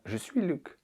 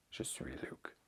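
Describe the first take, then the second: First: Said in the usual way. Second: Very soft, voiceless whisper. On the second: Acted. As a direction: whisper it as a hushed aside. Repeats joke answer under breath. (chuchoté, à peine audible)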